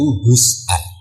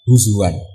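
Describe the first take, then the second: First: It has a glottal stop in the middle. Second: It has a w sound in the middle. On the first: "dari haza yahzau hus'an" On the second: "hamzah ditakhuf jadi wawu huzuan"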